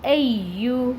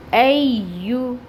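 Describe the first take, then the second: First: Said in the usual way. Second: ایو stretched very slowly; slow, sung ایو; drawn-out recitation. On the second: Shown as a demonstration. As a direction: hold the ایو out like in tilawat. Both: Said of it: "چار حرکت کے برابر".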